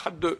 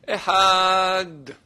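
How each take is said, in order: First: An extra vowel is added after the final d. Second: The word ends cleanly on the d consonant. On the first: The speaker calls it wrong. "on ne fait pas faire Echad deux" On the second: The speaker calls it right. "Il faut prononcer le D"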